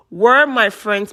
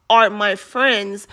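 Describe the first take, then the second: First: Slow "were my friends", WERE punched first; stress on WERE. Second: Drawn-out, deliberate "are my friends", ARE stressed. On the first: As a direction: hit "were" to mark the past tense. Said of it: "she changed it to". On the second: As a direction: lean slowly on "are" to mark present tense. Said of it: "but then she changed it to". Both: Retold or imitated.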